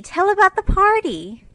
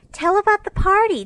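First: Put-on high, loud childlike plea rising at the end; eager little girls again. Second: Put-on high, loud childlike cry, falling at the end; two little sisters begging eagerly; eager little girls. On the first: Little girls in nightcaps plead to hear about the party, rising eager plea. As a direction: beg once more, lifting the end. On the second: Sleepy little girls beg their sister for party news, eager high cry. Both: A narrator's reading. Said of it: "two sleepy but eager voices cried out".

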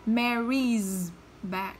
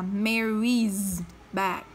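First: "Mary's bag" stretched very slowly, with the z held. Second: "Mary's bag", with a voiced z on "Mary's". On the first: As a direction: spell out "Mary's bag" syllable by syllable, leaning on the z. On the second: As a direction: give "Mary's" a buzzing z before "bag". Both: Shown as a demonstration. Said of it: "cô sẽ đọc là".

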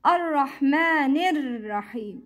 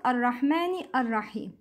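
First: Ar-Rahmanir Rahim joined, no second "a"; linked words. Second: Ar-Rahmani Ar-Rahim as two separate words; sounded hamza. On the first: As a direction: run ni straight into r in Ar-Rahmanir Rahim. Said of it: "It's not Ar-Rahmani Ar-Rahim". (Ar-Rahmanir Rahim with the hamza dropped) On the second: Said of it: "Don't pronounce Hamzat al-Wasl". (quick Ar-Rahmani Ar-Rahim, unlinked) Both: Shown as a demonstration.

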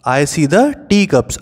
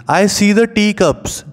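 First: Said in the usual way. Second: Slow and higher, sing-song; recited rhyme line. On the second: Shown as a demonstration. Teacher reciting the poem line to the class, slow and raised. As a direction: lift it up like a nursery rhyme.

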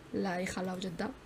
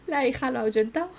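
First: Said in the usual way. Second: Cracking up as you say it again; laughing. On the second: Real, not acted. Laughing as the daughter scares off the dad. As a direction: repeat it through a laugh, louder. Repeats line laughing at the game.

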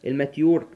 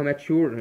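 First: الماتيور said with a clear "ty", el-maa-TYOOR; pronounced maatyoor. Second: ماتشور said with a "tch" sound, maa-TCHOOR; pronounced maatchoor. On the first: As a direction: say الماتيور as "ma-tyoor", not "ma-tchoor". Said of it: "في بعض الدكاترة بتنطقها ماتشور". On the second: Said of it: "وفي ناس بتنطقها ماتشور". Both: Shown as a demonstration.

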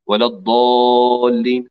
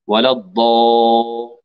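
First: ولا الضالين with the vowel rounded toward o, a little slow; rounded mistake. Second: ولا الضا- with the vowel tinged toward o; wrong rounded daad. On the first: Teacher demonstrating the common error. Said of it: "هذا خطأ". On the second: Teacher imitating the mistake with a rounded vowel. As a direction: let the a of الضا slide toward u. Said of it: "مشوبا بالضم". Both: Shown as a demonstration.

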